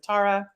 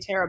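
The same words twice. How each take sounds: First: The name is said the Irish way. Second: The name is said the American way.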